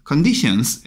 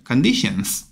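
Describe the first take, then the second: First: Final s sounded in Conditions; corrected plural Conditions. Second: Conditions, final s clear. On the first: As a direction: add the s to Conditions. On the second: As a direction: repeat Conditions with s. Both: Shown as a demonstration. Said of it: "S 붙여주셔야 되겠죠".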